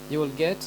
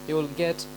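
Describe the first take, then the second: The two takes are said the same way.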